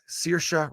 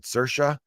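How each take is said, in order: First: Saoirse said as SEER-sha; SEER-sha pronunciation. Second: Saoirse said as SUR-sha; SUR-sha pronunciation. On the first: Podcaster introducing the film's star, Saoirse said SEER-sha. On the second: Podcaster questioning the star's name, Saoirse said SUR-sha. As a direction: say Saoirse with "ur" in the first syllable. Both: Shown as a demonstration. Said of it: "two different ways to pronounce that name".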